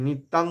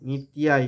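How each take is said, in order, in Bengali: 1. শব্দটি বন্ধ ম-জাতীয় ধ্বনি দিয়ে শেষ হয়। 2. শব্দটি খোলা অনুনাসিক স্বরধ্বনি দিয়ে শেষ হয়। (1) "নিত্যাং বলবো না"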